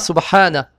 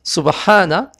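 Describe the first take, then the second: First: The word ends in an a vowel. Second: The same.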